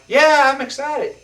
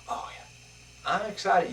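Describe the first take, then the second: First: It is said with lively, varied pitch. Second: It is said in a flat, monotone voice.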